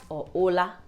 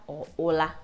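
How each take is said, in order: Both takes have the same delivery.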